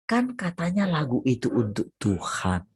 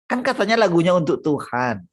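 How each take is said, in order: First: Said in the usual way. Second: "katanya" hit louder and higher, then falling; stress on katanya. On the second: Shown as a demonstration. Preacher mocking songwriters to the congregation, pressing "katanya". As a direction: repeat it with scorn on "katanya".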